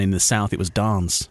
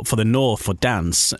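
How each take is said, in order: First: 'dance' with a long 'ah', as in 'father'; southern long A. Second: 'dance' with a short flat northern A, as in 'cat'. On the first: Voiceover artist on split station imaging, southern long A in dance. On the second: Voiceover artist on split station imaging, northern short A in dance. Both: Shown as a demonstration.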